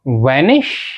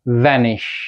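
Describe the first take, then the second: First: It begins with a rounded-lip w sound. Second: It begins with a teeth-on-lip v sound. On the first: The speaker calls it wrong. "Not" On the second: The speaker calls it right. "बल्कि"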